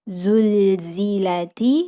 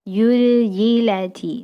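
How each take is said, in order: First: The word is said with z sounds. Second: The first z is replaced by a y sound. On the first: The speaker calls it right. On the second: The speaker calls it wrong.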